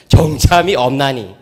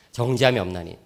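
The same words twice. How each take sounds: First: 정죄함이 stressed, slow and weighty; slow emphatic reading. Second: 정죄함이 없나니 repeated much softer and lower. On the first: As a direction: read 정죄함이 없나니 slowly, leaning on 정죄함이. (정죄함이를 힘주어 천천히 낭독) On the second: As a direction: echo 정죄함이 없나니 quietly to let it sink in. (정죄함이 없나니를 낮고 조용히 반복) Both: Shown as a demonstration. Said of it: "로마서 팔 장 일 절".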